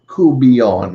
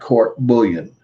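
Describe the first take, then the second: First: It is said with a French pronunciation. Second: It is said with an English pronunciation. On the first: The speaker calls it right. "It's pronounced coubillon" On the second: The speaker calls it wrong. "not court bullion, okay, which is the normal, I guess, the outside of the French uh, pronunciation"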